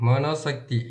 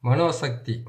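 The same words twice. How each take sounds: The two takes are said the same way.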